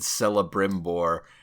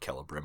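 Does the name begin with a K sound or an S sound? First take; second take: S sound; K sound. First: The name begins with a soft S sound. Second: The name begins with a hard K sound. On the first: The speaker calls it wrong. "I got to correct a friend in public when he said Celebrimbor" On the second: The speaker calls it right. "I'm sorry, it's uh, Celebrimbor. ... They're hard. ... Think Latin. Cicero"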